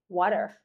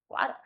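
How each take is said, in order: First: It is said in an American accent. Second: It is said in a Scottish accent. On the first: "like an American might say water" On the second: "a Scottish person might say water, you know, with a Scottish accent"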